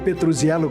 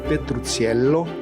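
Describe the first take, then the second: First: The surname is said with Brazilian Portuguese pronunciation. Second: The surname is said with Italian pronunciation. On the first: "como dizem os brasileiros" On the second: "pronunciado em italiano"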